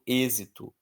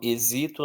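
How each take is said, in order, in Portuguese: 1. A tônica está na antepenúltima sílaba. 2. A tônica cai depois da antepenúltima sílaba. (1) "eu falo" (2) "Não falo"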